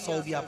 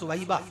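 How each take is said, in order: First: The name begins with 'Sau' and ends '-biya'. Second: The name begins with 'Suw' and ends '-aiba'. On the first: The speaker calls it wrong. "सौबिया सौबिया पढ़ते हैं" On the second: The speaker calls it right. "उसका नाम है सुवैबा"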